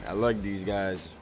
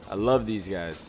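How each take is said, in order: Both takes have the same delivery.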